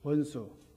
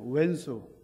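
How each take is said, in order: First: The first syllable is pronounced 'won'. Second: The first syllable is pronounced 'oen'. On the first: This is the standard form listeners may not catch. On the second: This is the everyday form listeners know better.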